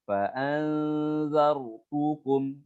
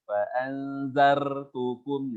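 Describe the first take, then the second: First: The r is a single short tap. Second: The r is rolled with many tongue taps. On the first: The speaker calls it right. "hati-hati ra-nya jang pergerakan lidah nggak boleh banyak-banyak" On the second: The speaker calls it wrong. "nggak seperti itu"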